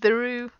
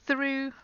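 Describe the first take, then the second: First: The th is voiced, with throat vibration. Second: The th is unvoiced, with only air. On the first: The speaker calls it wrong. "that's the voice sound" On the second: The speaker calls it right. "just the air coming between your top teeth and your tongue"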